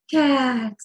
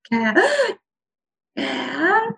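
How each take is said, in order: First: "cat" drawn out, falling on the out-breath; exhalation phonation. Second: "cat" voiced high on an in-breath; inhalation phonation. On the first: Clinician moves to single syllable words, exhaled "cat". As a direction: let "cat" come down as you breathe out. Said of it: "come back down on that exhalation". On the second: Clinician moves to single syllable words, inhaled high "cat". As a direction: gasp the word "cat" inward, high. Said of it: "move to single syllable words". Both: Shown as a demonstration.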